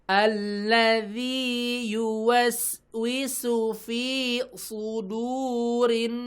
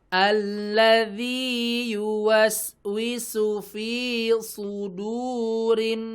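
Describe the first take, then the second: Both takes have the same delivery.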